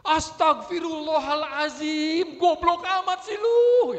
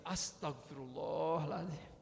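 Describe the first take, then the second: First: Slow, high furious yell; hammed-up raging prayer turning into an insult; istighfar iblis. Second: Slow, softened calming prayer; istighfar dilembutkan. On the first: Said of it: "ini istighfarnya istighfar iblis kayaknya". (teriakan marah melengking, diulur lambat) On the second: Acted. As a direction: draw it out gently to cool the anger. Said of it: "sudah dilembutkan". (istighfar pelan dan lembut)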